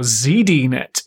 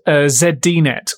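First: The name is said the American way. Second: The name is said the non-American way.

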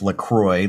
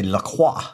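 First: The name ends with an English 'croy' sound. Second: The name ends with a French 'krwah' sound. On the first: "I grew up my whole life LaCroix, like C-R-O-Y" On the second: "in France or in Canada, in Quebec, they say LaCroix, which is technically the proper pronunciation"

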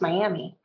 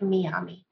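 First: It is pronounced the English way. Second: It is pronounced the non-English way. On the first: The speaker calls it right. "It's pronounced Miami" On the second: The speaker calls it wrong. "People that don't speak English pronounce it Miami"

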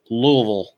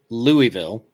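First: The name is mumbled and slurred together. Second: The name is said clearly, every syllable distinct. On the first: This is how locals in Kentucky say it. "with an entire handful of rocks in your mouth" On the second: This is how northerners say it. "in the north, we say it Louisville, like the Louisville Slugger"

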